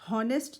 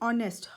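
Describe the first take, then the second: First: The word begins with an audible h sound. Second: The word begins with a vowel, no h sound. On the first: The speaker calls it wrong. "हॉनेस्ट नहीं बोलते" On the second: The speaker calls it right. "हम इस word को बोलते हैं ऑनेस्ट"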